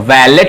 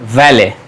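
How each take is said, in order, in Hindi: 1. यह शब्द एक साफ़ 't' की आवाज़ के साथ खत्म होता है। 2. यह शब्द एक स्वर पर खत्म होता है, इसमें 't' की आवाज़ नहीं है। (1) "वैलेट नहीं है" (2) "टी साइलेंट है"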